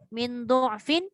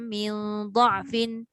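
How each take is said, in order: First: The first syllable has the vowel 'u'. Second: The first syllable has the vowel 'a'. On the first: "Wajah yang kedua dia kata dengan dhammah" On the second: "semua dengan dha'. Maksudnya baris atas sahaja"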